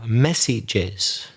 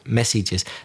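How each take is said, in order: First: A vowel syllable is added before the final s. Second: No vowel syllable is added before the final s. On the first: The speaker calls it right. "you needed to say the plural, messages" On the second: The speaker calls it wrong. "you didn't pronounce the es at the end"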